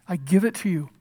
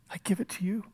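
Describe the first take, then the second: First: Said in the usual way. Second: Soft unvoiced whisper of trust; a whispered prayer of surrender. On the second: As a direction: breathe it out, letting go. Jesus' surrender, voiced softly.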